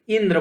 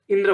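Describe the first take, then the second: First: Indra with a weighted opening syllable; stress on first syllable. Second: Said in the usual way. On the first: Shown as a demonstration. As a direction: force on the इं of Indra. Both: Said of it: "जोर दे रहे हैं".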